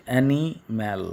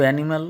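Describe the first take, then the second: First: animal split in two parts, ani, then mal; broken into syllables. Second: Said in the usual way. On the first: Shown as a demonstration. Teacher showing pupils the two parts, animal broken as ani-mal. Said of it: "ভেঙে". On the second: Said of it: "বলতে হচ্ছে".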